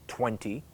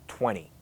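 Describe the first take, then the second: Both takes have the same delivery.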